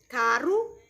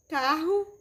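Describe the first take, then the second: First: CARO with a single tapped R. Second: CARRO with a throaty, h-like R; double R sound. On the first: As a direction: say "caro" with a light tongue-flick R. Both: Shown as a demonstration. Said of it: "as diferenças dos sons do R".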